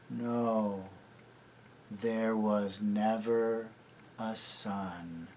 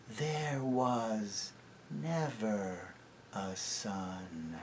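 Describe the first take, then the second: First: Slow, soft, entranced echo; dazed echo. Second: Very slow, soft witch; hushed witch voice. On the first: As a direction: repeat it like in a trance. Enchanted echo. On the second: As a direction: seal the spell quietly. Witch declares. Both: A narrator's reading.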